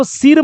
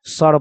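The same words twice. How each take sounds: First: "सिर" with a short i before r; wrong reading. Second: "सर" with a short neutral vowel, low; correct reading. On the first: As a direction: misread it as SIR with the i of pin, "सिर". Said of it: "मत पढ़ दीजिएगा". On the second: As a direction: say "सर" as SUR, no i sound. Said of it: "उसको हम लोग क्या पढ़ते हैं?". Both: Shown as a demonstration.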